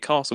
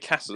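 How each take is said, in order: First: The word is said in a London-style pronunciation. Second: The word is said in a Birmingham-style pronunciation. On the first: "It's that's the correct way" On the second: "But Birmingham people say castle"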